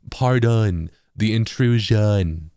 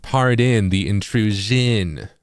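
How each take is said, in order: First: Very slow West Coast take on the phrase; West Coast accent. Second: Slow, careful East Coast pardon the intrusion; drawn-out East Coast reading, eh in pardon; East Coast accent. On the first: Contrasting coasts for viewers, slow West Coast accent. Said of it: "the West Coast accent will be". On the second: Showing viewers own East Coast way, slow East Coast accent. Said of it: "that's my, like, East Coast accent". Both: Shown as a demonstration.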